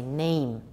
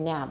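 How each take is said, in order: First: The vowel is a gliding ay sound. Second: The vowel is a short a sound. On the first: The speaker calls it right. "we say name" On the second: The speaker calls it wrong. "we don't say nam"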